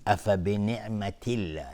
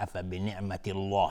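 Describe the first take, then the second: First: الله with a light l and front vowel; thin Allah. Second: الله with a thick dark l and rounded aw-like vowel; wrongly heavy Allah. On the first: Teacher giving the correct reading, thin الله. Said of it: "نازک لفظ جلاله تلفظ بشه". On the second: Teacher imitating a common error, heavy الله. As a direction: thicken الله in افبنعمت الله as a mistake. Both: Shown as a demonstration.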